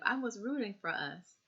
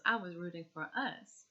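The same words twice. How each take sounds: First: "rooting" stressed, "us" falls away unstressed. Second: "us" stressed in place of "rooting"; wrong stress on us. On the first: Shown as a demonstration. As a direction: lean on "rooting", let "us" fall off. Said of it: "Instead of". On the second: Retold or imitated. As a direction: put the weight on "us", not on "rooting". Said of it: "The emphasis on us".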